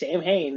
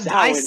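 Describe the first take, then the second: First: The word is said just as it is spelled. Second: The word is said differently from its spelling. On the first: The speaker calls it wrong. "a lot of people think it's Sam Hain" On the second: The speaker calls it right. "props for you, Mike, for pronouncing it right"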